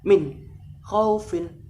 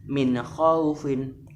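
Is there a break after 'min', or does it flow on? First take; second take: break; flowing. First: The n stops abruptly before the next word. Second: The n flows smoothly into the next word. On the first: The speaker calls it wrong. "Juga tidak boleh min khaufin, tidak ada hentakan" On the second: The speaker calls it right. "harus min khaufin"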